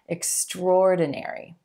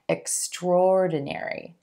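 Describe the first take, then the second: First: The 'a' is dropped, going straight into 'or'. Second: The 'a' is dropped, going straight into 'or'.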